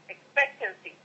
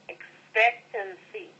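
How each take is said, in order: First: The word is said fast. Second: The word is said slowly.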